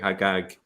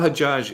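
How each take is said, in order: First: The name is said with a hard g sound. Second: The name is said with a soft j sound.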